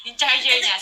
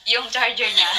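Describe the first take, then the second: First: Said in the usual way. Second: Laughing through the words; giggling as you start the story. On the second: Real, not acted. Retelling funny charger story. (tumatawa habang nagsasalita)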